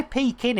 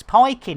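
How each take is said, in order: First: "pecan" said PEE-can; pecan his own way. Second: "pikin" as the other way of saying pecan; alternative pecan pronunciation. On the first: Streamer weighing how to say the pie's nut, own pronunciation of "pecan". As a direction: say "pecan" as your own version. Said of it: "I say pecan". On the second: Streamer correcting himself on the nut's name, alternative pronunciation "pikin". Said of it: "it's pikin". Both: Shown as a demonstration.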